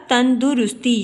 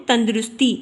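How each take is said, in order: First: "تندرستی" as tandurusti, u after the d; correct pronunciation. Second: "تندرستی" as tandrusti, no u after the d; everyday pronunciation. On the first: Teacher gives students the correct reading, "تندرستی" said as tan-du-rus-ti. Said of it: "دال کے اوپر ہم نے پیش". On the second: Teacher shows students the everyday form, "تندرستی" said as tand-rus-ti. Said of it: "جب ہم اس کو بولتے ہیں". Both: Shown as a demonstration.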